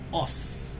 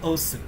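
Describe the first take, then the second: First: The final u vowel is silent. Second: The final u vowel is clearly pronounced. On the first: The speaker calls it right. "You don't sound the U in Japanese" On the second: The speaker calls it wrong. "it's not Osu"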